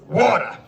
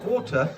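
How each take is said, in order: First: The word is said in a plain, unposh accent. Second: The word is said in a posh, hoity-toity accent. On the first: The speaker calls it right. "I've learned to say" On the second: The speaker calls it wrong. "not water ... sound a little hoity-toity"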